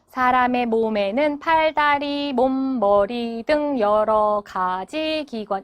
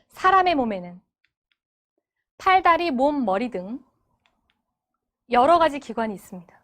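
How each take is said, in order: First: It is read choppily, one syllable at a time. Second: It is read in meaningful phrase chunks.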